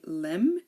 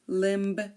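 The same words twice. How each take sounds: First: The B sound is silent. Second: The B sound is clearly pronounced. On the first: The speaker calls it right. "So we say limb" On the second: The speaker calls it wrong. "We don't say limb"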